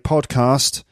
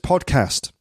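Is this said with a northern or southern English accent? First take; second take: southern; northern. First: It is said with a southern English vowel. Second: It is said with a northern English vowel. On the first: "I say podcast" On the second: "who originally is from the north ... he says podcast"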